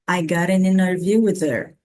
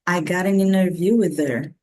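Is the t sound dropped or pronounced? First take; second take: dropped; dropped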